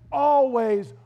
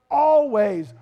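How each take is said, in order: Both takes have the same delivery.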